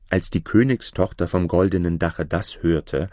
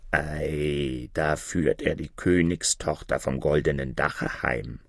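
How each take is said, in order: First: Said in the usual way. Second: Lower, much softer raven voice; a raven muttering from the sky; croaking raven. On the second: Acted. Raven telling the others the princess is being taken home, low and soft.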